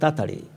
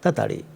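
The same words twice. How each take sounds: First: The word is said fast with a syllable dropped. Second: The word is said fast with a syllable dropped.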